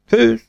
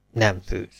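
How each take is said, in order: First: High-pitched yes; hopeful button-count. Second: Soft no answer; glum button-count. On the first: Counting buttons about a favourite dish, high hopeful yes. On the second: Counting buttons about a favourite dish, subdued no. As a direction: drop the voice quiet for the no. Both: Acted.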